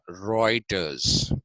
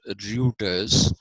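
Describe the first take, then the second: First: The first vowel sounds like 'oi'. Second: The first vowel sounds like 'oo'. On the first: The speaker calls it right. "It is pronounced Reuters because in German, E U is oi" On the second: The speaker calls it wrong. "it's not pronounced Reuters"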